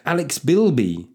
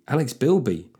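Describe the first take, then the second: First: Slow, drawn-out name announcement; announcing a patron's name; hype call. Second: Said in the usual way. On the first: Acted. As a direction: stretch out the name. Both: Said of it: "do a very quick hype here".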